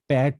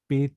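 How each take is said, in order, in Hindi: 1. स्वर खुला है, 'ae' जैसा। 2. स्वर बंद है, 'e' जैसा। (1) "আমরা প্যাট বলবো না" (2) "আমরা পেট বলবো"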